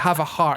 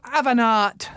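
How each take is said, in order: First: The h sound at the start is pronounced. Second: The h sound at the start is dropped. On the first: "when you sort of say" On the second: "they don't pronounce H's"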